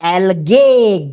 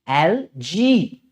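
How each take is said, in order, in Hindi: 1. दूसरा अक्षर 'gay' जैसा सुनाई देता है। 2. दूसरा अक्षर 'jee' जैसा सुनाई देता है। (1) "गे नहीं बोलने का" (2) "इसका करेक्ट प्रोनाउंसिएशन है एल जी"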